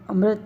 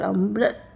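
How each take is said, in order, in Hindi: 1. यह शब्द बराबर लय में बोला जाता है, बिना अतिरिक्त ज़ोर के। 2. पहले अक्षर पर ज़ोर है और उसे खींचकर बोला जाता है। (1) "सीधे से पढ़ा जाए तो तीन मात्रा होगी" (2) "अमृत ऐसे पढ़ा जाए तो इसमें चार मात्राएं होती है"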